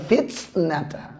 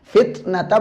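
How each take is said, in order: First: The t sounds are released with an exaggerated breath. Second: The t sounds are released cleanly without extra breath. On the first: The speaker calls it wrong. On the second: The speaker calls it right.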